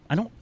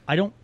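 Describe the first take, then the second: The two takes are said the same way.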